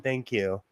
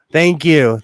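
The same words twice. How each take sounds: First: Said in the usual way. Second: Louder, mock-grateful; mock-grateful thanks to the buzzing phone; sarcastic thanks. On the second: Real, not acted. Thanking phone's flood alert.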